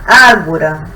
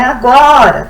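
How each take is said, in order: First: The stress is on the first syllable. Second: The stress is on a later syllable. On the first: The speaker calls it right. "acento no A" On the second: The speaker calls it wrong. "Não é agora"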